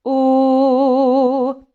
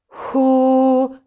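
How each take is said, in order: First: The vowel starts with a hard glottal onset. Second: The vowel starts with a breathy, airy onset. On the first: "a hard attack or where we're using a glottal stop to start" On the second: "let the breath start moving, and then the fold's going to come over the top"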